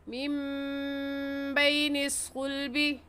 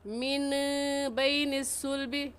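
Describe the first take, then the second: First: The first word ends in a nasalized m sound. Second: The first word ends in a plain n sound. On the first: The speaker calls it right. "सही ये है" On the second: The speaker calls it wrong. "गलत ये है"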